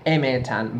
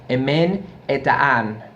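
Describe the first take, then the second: First: It is said as one word without the 'n'. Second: It is said as two words with the 'n'. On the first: The speaker calls it wrong. "apparently it's a mispronunciation" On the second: The speaker calls it right. "the correct term would be"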